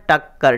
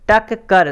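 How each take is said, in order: First: टक्कर said with a held double क; joined. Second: टक कर said as two separate beats; split into two parts. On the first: Teacher joins the syllables for students, doubled consonant. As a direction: join it into one word, टक्कर. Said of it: "दोनों को मिला के हम क्या लिखते हैं". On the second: Teacher splits the word for students, separated syllables. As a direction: break टक कर apart to show the double letter. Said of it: "इस तरह यहाँ पे". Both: Shown as a demonstration.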